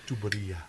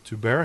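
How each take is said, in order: First: The word is said with four syllables. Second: The word is said with three syllables. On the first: The speaker calls it right. "It's Tuberia" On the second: The speaker calls it wrong. "I was Tubera"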